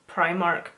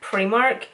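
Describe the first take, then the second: First: It is said with an English pronunciation. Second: It is said with a Northern Irish pronunciation. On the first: The speaker calls it wrong. "if you're English, and sometimes I would notice Irish people would call Primark Primark. It just sounds so wrong" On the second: The speaker calls it right. "obviously I'm from Northern Ireland, so we call Primark over here Primark"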